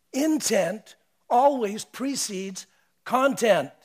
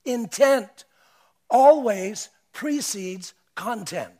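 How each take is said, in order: First: "Intent always precedes content" repeated slowly with lighter force; slow repeated maxim. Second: "Intent always precedes content" slow, each word weighted, louder; slow emphatic maxim. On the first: Preacher repeating his maxim to the congregation, slow and calmer. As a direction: let the maxim settle, slower. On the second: Preacher coining a phrase for the congregation, slow and weighty. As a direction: deliver the maxim slowly and heavily. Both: Shown as a demonstration. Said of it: "The Ravi Zacharias is this".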